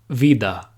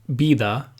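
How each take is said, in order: First: The word begins with a v sound. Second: The word begins with a b sound. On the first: "instead of" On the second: "pronounce the V like a B"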